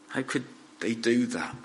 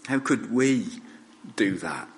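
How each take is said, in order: First: "they do that" asked softly, weight on "do"; quiet disbelief, falling on "do that"; questioning others. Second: "we" lifted and leaned on, then falling; stress on WE. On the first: Blame put on the crowd. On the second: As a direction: turn the blame inward by stressing "we". Blame turned onto himself and listeners. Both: Real, not acted.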